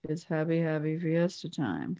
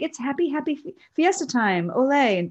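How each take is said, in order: First: It is said in a sad, flat tone. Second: It is said in a cheerful, upbeat tone.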